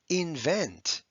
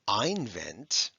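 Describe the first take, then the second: First: The first vowel is a short I sound. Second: The first vowel is a long I sound. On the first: The speaker calls it right. "It's a short I" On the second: The speaker calls it wrong. "It's not einvent"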